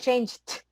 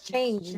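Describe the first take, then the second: First: The ending sounds like a T. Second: The ending sounds like a D. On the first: The speaker calls it wrong. "I don't say changed" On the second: The speaker calls it right. "It's changed. ... change is a D sound, not T sound"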